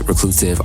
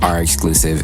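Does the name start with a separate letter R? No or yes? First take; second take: no; yes. First: The name is said as one word, reclusive. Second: The name is said as letter R, then exclusive.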